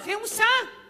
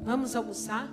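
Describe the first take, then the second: First: It is said in a harsh, stern tone. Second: It is said in a gentle, kind tone.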